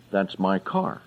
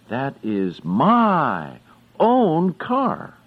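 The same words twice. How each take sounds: First: Said in the usual way. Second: Slow, stressing "own" in "That is my own car"; emphatic own. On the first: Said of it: "you can say". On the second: Shown as a demonstration. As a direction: say "my own car" slowly, proud of it. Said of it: "you really want someone to know that is your car".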